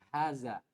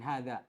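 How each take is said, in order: First: The middle consonant is a 'z' sound. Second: The middle consonant is a voiced 'th' sound. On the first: The speaker calls it right. "pakai zai, bukan pakai dha" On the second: The speaker calls it wrong. "Saya membacanya dengan hadza, ... dan itu ternyata keliru"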